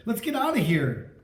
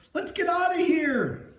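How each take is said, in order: First: A touch of fear, only slightly raised; mildly scared, urgent plea. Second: High, frantic scream to flee; terrified high-pitched escape cry; panicked cry. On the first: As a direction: urge escape, still fairly steady. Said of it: "Chris said". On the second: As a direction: shriek it like you're running for your life. Fleeing the ghost in panic. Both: A narrator's reading.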